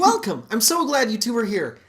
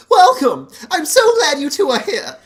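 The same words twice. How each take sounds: First: High, bright pastor greeting; upbeat youth pastor. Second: Loud, high, beaming welcome; upbeat youth pastor. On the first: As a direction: welcome them like a cheery youth pastor. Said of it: "Yep, perfect". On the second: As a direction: greet them like an overeager youth pastor. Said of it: "it was just a youth pastor voice". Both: Acted.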